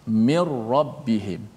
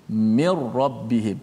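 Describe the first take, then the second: Both takes have the same delivery.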